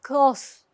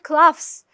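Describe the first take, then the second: First: The vowel is a plain long o sound. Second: The vowel is followed by an f-like sound. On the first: The speaker calls it right. "but close" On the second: The speaker calls it wrong. "Not cloths"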